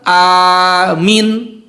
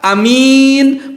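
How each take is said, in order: First: Only the first vowel is long. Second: Only the second vowel is long. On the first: Believe! "A-nya panjang, lalu minnya pendek" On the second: A trustworthy person. "A-nya pendek, minnya panjang"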